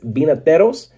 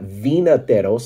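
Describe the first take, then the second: First: The word begins with a B sound. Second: The word begins with a V sound. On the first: The speaker calls it right. "the V in Spanish is pronounced like a B" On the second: The speaker calls it wrong. "it's not Vinateros"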